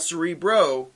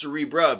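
First: "Cerebro" ending in an OH sound. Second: "Cerebra" ending in an AH sound. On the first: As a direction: say "Cerebro" with a final "bro". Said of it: "'cause it's not Cerebro". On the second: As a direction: say "Cerebra" with a final "bruh". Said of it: "it's Cerebra, because". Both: Shown as a demonstration.

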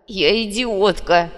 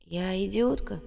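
First: Loud, very slow anguished exclamation; drawn-out, despairing outburst; bitter self-reproach. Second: Soft, slow, stunned question; hushed disbelief; dazed echo. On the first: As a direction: cry it out, condemning yourself. Girl bitterly accepts the insult. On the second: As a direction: echo the insult faintly, slowly. Dazed girl echoes the insult. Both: A narrator's reading.

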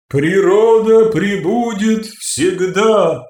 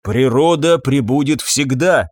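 First: Природа пребудет всегда, slow, high, ringing and imperious; ringing, commanding. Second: Said in the usual way. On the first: Acted. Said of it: "сказала звонко и властно".

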